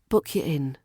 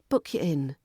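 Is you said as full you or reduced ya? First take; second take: reduced ya; reduced ya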